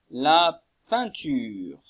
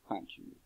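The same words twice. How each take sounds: First: La peinture drawn out slowly, every sound clear; teacher models La peinture very slowly before handing over; slow model word. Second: Said in the usual way. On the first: Shown as a demonstration. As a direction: say La peinture slowly so pupils can copy it. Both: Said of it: "À vous".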